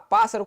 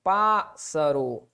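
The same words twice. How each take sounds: First: Said in the usual way. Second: Pássaro split slowly as PÁS, sa, ro, lower; pássaro in slow, low, detached syllables. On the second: Shown as a demonstration. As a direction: separate each syllable of pássaro with pauses. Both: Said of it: "como é que se separa mesmo".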